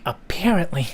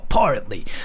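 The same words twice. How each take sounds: First: The stressed vowel sounds like 'pear'. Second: The stressed vowel sounds like 'paw'. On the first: "it kind of gives me like goosebumps when I say it like apparently" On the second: "I say it like a paw, paw. It's not pear"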